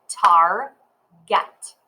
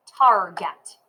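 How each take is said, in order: First: "Target" broken into two beats, Target as tar, pause, get; clapped syllables. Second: Said in the usual way. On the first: Shown as a demonstration. Teacher clapping out Target for learners, split into syllables. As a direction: clap out "Target" slowly, syllable by syllable. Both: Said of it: "Let's clap it".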